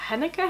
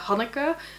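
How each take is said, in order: First: The name is pronounced with English sounds. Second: The name is pronounced with Dutch sounds. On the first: "I don't know how you would pronounce it in English. I guess" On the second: "I pronounce it the Dutch way"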